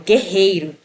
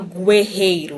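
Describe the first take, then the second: First: No U sound is pronounced after the G. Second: A U sound is pronounced after the G. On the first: The speaker calls it right. "Eu falo guerreiro" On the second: The speaker calls it wrong. "Eu não falo guerreiro"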